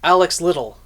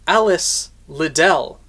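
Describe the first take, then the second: First: The name is said quickly, running together. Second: The name is said at a normal pace.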